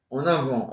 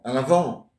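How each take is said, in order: First: "En avant" said with a clear nasal "en"; corrected en avant. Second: "À l'avant" said with "à l'" instead of "en"; mispronounced à l'avant. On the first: Repeating papa's correction back to him. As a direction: say "En avant" properly, "en" and not "à l'". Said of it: "Tu m'as dit en avant". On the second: Repeating the mistaken phrase back to papa. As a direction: say "À l'avant", the wrong way, with "à l'". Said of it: "il t'a dit en avant". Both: Shown as a demonstration.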